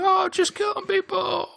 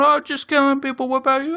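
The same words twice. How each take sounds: First: Even higher, squeaky reply; squeaky cartoon echo; squeakier barkeep. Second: High, breezy cartoon voice; high casual cartoon voice; chirpy barkeep. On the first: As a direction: answer back in a tinier voice. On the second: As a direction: shrug off killing as small talk. Barkeeps chatting about killing.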